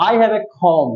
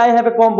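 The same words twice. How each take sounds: First: "comb" with a puffed k and silent b; aspirated k. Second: "comb" with an unaspirated k; wrong take, plain k. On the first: Teacher translates for students, aspirated k in "comb". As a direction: puff the k of "comb", end on m. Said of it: "ক এর উপর একটা হ আসবে". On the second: Teacher offers students the wrong option, plain k in "comb". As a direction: start "comb" on a hard k, no breath. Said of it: "নাকি I have a comb বলবো". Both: Shown as a demonstration.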